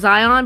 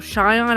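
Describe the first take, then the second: First: The name begins with a z sound. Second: The name begins with an sh sound. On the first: The speaker calls it wrong. "I keep saying Zion" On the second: The speaker calls it right. "someone said it was pronounced like Shion"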